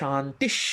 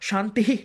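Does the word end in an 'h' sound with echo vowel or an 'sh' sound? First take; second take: sh sound; h sound. First: The word ends with a bare sh sound. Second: The word ends with an h and echo vowel. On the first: The speaker calls it right. "তালেবস্যয় হসন্তের মতো" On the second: The speaker calls it wrong. "শান্তিহি শান্তিহি না বলে"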